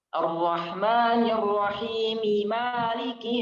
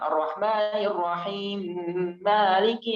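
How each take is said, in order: First: The m of Rahim carries its full vowel. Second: The m of Rahim merges into the next m. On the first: The speaker calls it right. "kalau mau disambung ya maka sempurnakanlah uh, harakat mim" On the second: The speaker calls it wrong.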